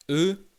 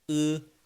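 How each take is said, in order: First: "E" as a plain front French vowel. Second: "E" pulled back into the throat; Chinese E. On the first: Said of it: "En français, tu vas dire E". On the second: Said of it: "ça vient plus de la gorge". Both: Shown as a demonstration.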